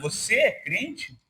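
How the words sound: It sounds like a doubtful, skeptical question.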